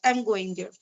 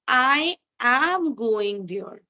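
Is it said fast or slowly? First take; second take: fast; slowly. First: It is said very fast. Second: It is said a bit slowly.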